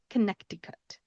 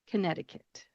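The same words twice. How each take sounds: First: The middle C is pronounced as a K sound. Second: The middle C is silent, with no K sound. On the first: The speaker calls it wrong. "it looks like it should be Connecticut" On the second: The speaker calls it right. "we do not pronounce that middle C"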